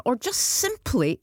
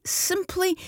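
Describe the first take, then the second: First: Said in the usual way. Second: Simply jumps much higher, drawn out; stress on simply. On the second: Real, not acted. Host inviting listeners to vent, simply pitched high and stressed. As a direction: lift the word simply way up for emphasis. Host repeats word for emphasis.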